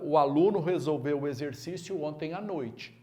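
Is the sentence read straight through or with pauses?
straight through. It is read straight through with no pause.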